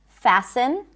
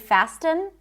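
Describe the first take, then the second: First: The T sound is silent. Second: The T sound is pronounced. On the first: The speaker calls it right. "words with a silent T" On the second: The speaker calls it wrong. "We don't say fasten"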